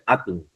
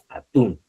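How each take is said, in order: First: The stress is on the first syllable. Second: The stress is on the last syllable. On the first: The speaker calls it wrong. "Está mal dicho" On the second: The speaker calls it right. "es atún, tilde en la U"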